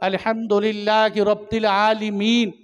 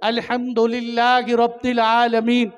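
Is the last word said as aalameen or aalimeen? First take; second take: aalimeen; aalameen. First: The last word is said as aalimeen. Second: The last word is said as aalameen. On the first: God is the creator of the scholars only. The speaker calls it wrong. "जो उलमा को पैदा करने वाले हैं" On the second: God is the sustainer of all the worlds. The speaker calls it right. "आलमीन पढ़ते हैं"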